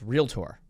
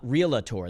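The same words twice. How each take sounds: First: It is said with two syllables, real-tor. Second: It is said with three syllables, real-a-tor. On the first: The speaker calls it right. "It's realtor" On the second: The speaker calls it wrong. "It's not realtor. There is no A in there"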